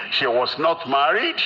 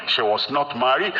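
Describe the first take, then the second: No difference in how they are said.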